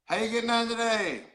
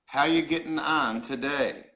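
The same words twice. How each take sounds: First: Higher, run-together Newfoundland greeting; lilting Newfoundland accent; Newfoundland phrase. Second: "How you getting on today" spelled out slowly; "How you getting on today", unhurried, each word separated; slow explanation. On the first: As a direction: demonstrate a Newfoundland accent for repeating. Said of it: "we'll try it again". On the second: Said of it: "What that means is". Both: Shown as a demonstration.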